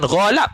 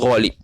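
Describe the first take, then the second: First: The second syllable has the vowel a. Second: The second syllable has the vowel i. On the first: The speaker calls it wrong. "bukan ghalab" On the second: The speaker calls it right. "tapi ghalib"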